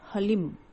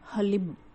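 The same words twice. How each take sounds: No difference in how they are said.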